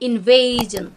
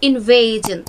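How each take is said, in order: Both takes have the same delivery.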